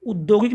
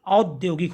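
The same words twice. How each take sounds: First: उद्योगिक begun with short "u"; wrong first vowel. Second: Said in the usual way. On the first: Shown as a demonstration. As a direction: open उद्योगिक on u. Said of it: "नहीं होता". (उद्योगिक, शुरू में उ) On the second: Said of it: "होता है".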